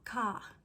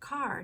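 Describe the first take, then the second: First: The r at the end is dropped. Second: The r at the end is clearly pronounced. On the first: "not ka" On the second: "I say car"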